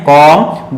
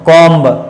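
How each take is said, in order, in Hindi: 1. आखिर में 'b' की कोई आवाज़ सुनाई नहीं देती। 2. आखिर में 'b' की आवाज़ सुनाई देती है। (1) "आपको प्रोनाउंस करना है" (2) "दैट इज रॉन्ग"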